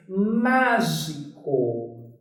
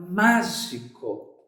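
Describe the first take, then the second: First: Mágico esticado e grave; very slow word. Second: Mágico dito devagar, separando as sílabas; mágico, bem pausado e grave; slow word. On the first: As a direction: draw out mágico very slowly, lower. (mágico dito muito devagar, em tom mais grave) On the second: (mágico pronunciado lentamente, sílaba por sílaba) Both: Shown as a demonstration. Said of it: "Outra palavra".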